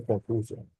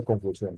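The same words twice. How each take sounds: First: "confusión" without the stress on its last syllable; missing final stress. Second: Said in the usual way. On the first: Shown as a demonstration. Teacher shows students a missing tilde, stress moved off the end of "confusión". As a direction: say "confusión" as if it had no tilde, stress pulled back to con-FU-sion. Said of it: "Si yo no le puse tilde, él no dice confusión". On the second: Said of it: "Si yo no le puse tilde".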